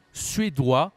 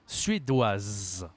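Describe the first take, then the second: First: SUÉDOIS ending in open "wa", final s silent; loud, clear "suédois" with no z; masculine pronunciation. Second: SUÉDOISE ending in a long sounded z; lower, falling "suédoise", buzz the final z; feminine pronunciation. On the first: Teacher introducing another nationality, masculine pronunciation. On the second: Teacher introducing another nationality, feminine pronunciation. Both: Shown as a demonstration. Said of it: "la prononciation est différente".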